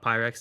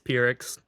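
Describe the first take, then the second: First: It sounds like the glassware brand Pyrex. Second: It does not sound like the glassware brand. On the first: The speaker calls it wrong. "It's not Pyrex. ... Don't think classware" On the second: The speaker calls it right. "It's Pyrrhix"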